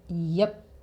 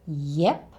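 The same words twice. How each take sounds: First: The vowel is a relaxed schwa sound. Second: The vowel is the e sound of egg. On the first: "with our favorite schwa sound" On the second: "you can say yep with an e sound like egg"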